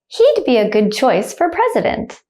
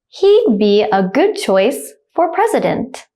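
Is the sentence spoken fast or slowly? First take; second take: fast; slow. First: The sentence is spoken quickly at natural speed. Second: The sentence is spoken slowly and carefully. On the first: "then I'll say it like a native speaker, speed" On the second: "The first time I'll say it slowly"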